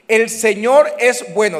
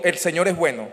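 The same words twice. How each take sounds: First: Slow, loud proclamation; preached declaration. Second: Said in the usual way. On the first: Shown as a demonstration. Pastor proclaiming to the congregation, loud and slow. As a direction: call it out slowly for the crowd to repeat. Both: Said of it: "diga conmigo".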